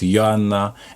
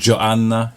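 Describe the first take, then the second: First: The name is said with Polish sounds. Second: The name is said with English sounds. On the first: This is her actual name. The speaker calls it right. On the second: This is how reviewers mistakenly say it. The speaker calls it wrong. "she's not"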